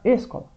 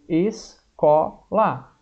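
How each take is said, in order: First: The stress is on the first syllable. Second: The stress is on the second syllable. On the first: The speaker calls it wrong. "mas não é o ESO mais forte? Não, vai ficar escola" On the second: The speaker calls it right. "Qual que é mais forte? É o có"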